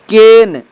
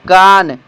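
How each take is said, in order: First: The vowel is a short front 'eh' sound. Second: The vowel is a long open 'ah' sound. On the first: The speaker calls it right. "इनकी शुद्ध उच्चारण" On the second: The speaker calls it wrong. "जब हम चीप अंग्रेजी जानते हैं"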